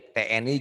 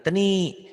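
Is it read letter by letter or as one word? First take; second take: letter by letter; one word. First: Each letter is named separately. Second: The letters are blended into one word. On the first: The speaker calls it right. "T N I gitu" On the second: The speaker calls it wrong. "jangan teni"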